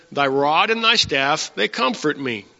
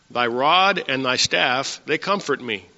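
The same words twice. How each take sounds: Both takes have the same delivery.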